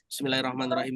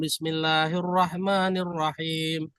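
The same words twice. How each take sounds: First: The phrase is recited quickly and hurriedly. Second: The phrase is recited slowly and deliberately. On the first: The reciter reads his own way when unheard. "dia pakai bacaannya sendiri" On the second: The reciter wants to impress the people listening. "bacanya pelan-pelan"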